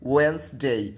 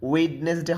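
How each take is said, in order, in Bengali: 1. প্রথম d ধ্বনিটি বাদ দেওয়া হয়। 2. প্রথম d ধ্বনিটি উচ্চারিত হয়। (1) "হবে ওয়েন্সডে" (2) "ওয়েডনেসডে হবে না"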